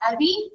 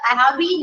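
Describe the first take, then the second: First: Have is swallowed, leaving a short blended sound. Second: Every word, including have, is pronounced fully.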